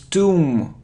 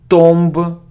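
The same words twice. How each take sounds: First: No b sound is heard at the end. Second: A b sound is heard at the end. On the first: The speaker calls it right. "we don't pronounce B, and it's a long sound U" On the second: The speaker calls it wrong. "It isn't tomb"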